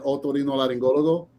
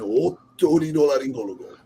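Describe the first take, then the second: First: It is said with a plain Spanish accent. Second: It is said with a Japanese accent.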